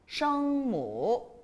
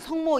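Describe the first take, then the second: First: It is said with a Mandarin pronunciation. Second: It is said with a Korean pronunciation. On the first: "중국 사람들은 성모 이렇게 얘기를 해요" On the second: "우리는 그냥 성모 이러는데"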